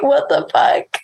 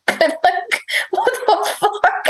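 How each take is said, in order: First: Retold annoyance, understated; lightly mocked irritation; mildly pissed imitation. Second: High, giggly exclamation; amused, high-pitched incredulity; laughing disbelief. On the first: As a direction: imitate someone fed up without raising the voice. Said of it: "like, so pissed". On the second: Retold or imitated. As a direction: squeak it out through laughter. Laughing as she tells the story.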